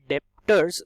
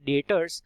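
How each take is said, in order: First: The b sound is pronounced before the t. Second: The b sound is silent before the t. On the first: The speaker calls it wrong. "बहुत लोग गलत pronunciation करते हैं इसका as डेप्टर्स, which is completely wrong" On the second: The speaker calls it right. "It should be pronounced as debtors actually and B is silent in it"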